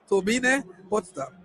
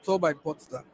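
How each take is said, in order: First: The name is pronounced with German sounds. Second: The name is pronounced with English sounds. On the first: "we have to pronounce it the German way" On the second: "if you want to say, say that in English"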